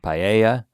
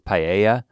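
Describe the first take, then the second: The two takes are said the same way.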